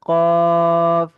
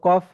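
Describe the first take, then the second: First: The vowel is drawn out for four counts. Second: The vowel is short, not drawn out. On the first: The speaker calls it right. "সুন্দর হয়েছে" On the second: The speaker calls it wrong. "আমরা কি এভাবে বলবো কফ?"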